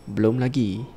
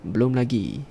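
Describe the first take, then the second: No difference in how they are said.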